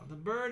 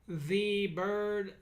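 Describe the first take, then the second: First: The word 'the' is said as 'thuh'. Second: The word 'the' is said as 'thee'. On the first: The speaker calls it right. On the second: The speaker calls it wrong.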